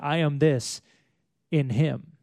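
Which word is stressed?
Him. The stress is on the word Him.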